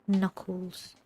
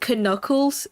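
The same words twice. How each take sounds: First: The K at the start is silent. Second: The K at the start is pronounced.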